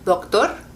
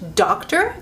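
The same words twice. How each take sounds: First: The d is soft and weak. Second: The d is a hard, firm stop. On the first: "and in Spanish would be doctor" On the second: "in English"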